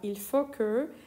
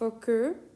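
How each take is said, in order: First: It starts with 'il' before 'faut'. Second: It starts directly with 'faut', with no 'il'. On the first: "یا il faut que" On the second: "خیلی وقتا این il faut que رو ایلش رو تلفظ نمی کنیم"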